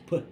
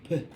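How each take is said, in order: First: The letter is said as its speech sound. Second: The letter is said as its speech sound.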